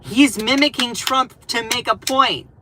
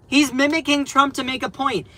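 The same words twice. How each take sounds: First: Said in the usual way. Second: "He's mimicking Trump" said higher and insistent; emphatic repeat. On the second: Real, not acted. Streamer insisting to chat, higher and emphatic. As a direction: drive the point home. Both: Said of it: "repeated for emphasis".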